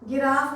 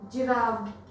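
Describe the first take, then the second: First: The word begins with a hard g sound. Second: The word begins with a soft j sound. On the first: The speaker calls it wrong. "गिराफ नहीं बोल रहे हैं" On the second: The speaker calls it right. "हम इसको ज pronounce कर रहे हैं"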